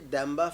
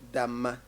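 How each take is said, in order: First: The middle has an m followed by b. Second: The middle has a long m with no b. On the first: This is the Dagbani form of the name. "we say Damba Festival, that is in in in Dagbani" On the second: This is the Mampuli form of the name. "if it is Mampuli we say Damma"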